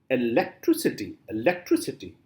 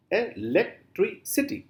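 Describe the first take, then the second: First: Said in the usual way. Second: "electricity" slowly broken into separate beats; split into syllables. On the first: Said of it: "How will you pronounce this word?". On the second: Shown as a demonstration. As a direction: chop "electricity" apart syllable by syllable, higher. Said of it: "Four syllables are there".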